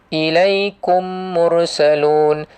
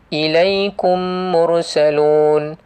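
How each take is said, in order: Both takes have the same delivery.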